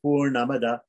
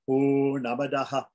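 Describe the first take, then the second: First: The word ends plainly with no final sound. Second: The word ends with an added 'ha' echo. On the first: "we don't even have to pronounce the Visarga as an echo. It's just Purnamada" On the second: "some people say Purnamadaha"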